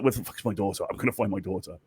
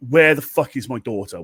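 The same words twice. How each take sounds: First: Low, softer vow of a hunting parent; light impression of an action-film avenger; quietly menacing, dropped in pitch; Liam Neeson. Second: Mock-angry demand, loud at first; hammed-up angry outburst; pissed-off mother. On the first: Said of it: "she's going full Ne-, Liam Neeson". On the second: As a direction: act out an enraged mum. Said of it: "like, proper pissed".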